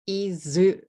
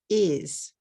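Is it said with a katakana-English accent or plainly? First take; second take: katakana; plain. First: It has an added final vowel, two syllables. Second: It is one syllable, without an added vowel.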